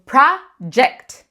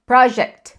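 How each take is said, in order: First: "project" with an English dj; English J sound. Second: "project" with a hard G like Portuguese; Brazilian hard G. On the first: Teacher models the correct word for students: clear demo. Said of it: "Então, por exemplo". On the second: Teacher shows the common Brazilian error: mock mistake. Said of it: "A gente tende a pronunciar só project". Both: Shown as a demonstration.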